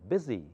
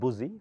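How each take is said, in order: First: The first vowel sounds like 'ih'. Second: The first vowel sounds like 'oo'. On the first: The speaker calls it right. "So U takes the sound of I" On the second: The speaker calls it wrong. "not boozy"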